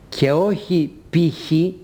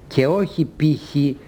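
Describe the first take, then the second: No difference in how they are said.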